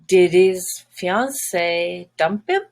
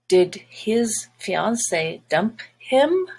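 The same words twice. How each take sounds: First: The words are linked smoothly together. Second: The words are said separately, without linking. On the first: The speaker calls it right. "Let's link it together" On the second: The speaker calls it wrong. "Doesn't sound very natural"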